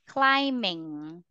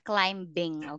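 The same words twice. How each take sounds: First: The b after the m is silent. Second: A b sound is heard after the m. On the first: The speaker calls it right. "silent B. Or remember, we don't pronounce letter B" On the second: The speaker calls it wrong.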